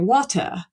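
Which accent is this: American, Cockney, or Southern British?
Southern British. It is said in a Southern British accent. "standard Southern British, you say"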